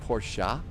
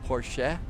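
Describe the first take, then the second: First: The word ends with an 'ah' vowel. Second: The word ends with an 'eh' vowel. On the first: "than an ah" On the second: "more like a eh"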